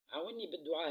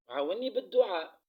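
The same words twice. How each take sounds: First: Said in the usual way. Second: Loud, pressing call for prayers; loud plea. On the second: Real, not acted. To her viewers asking them to pray, loud plea.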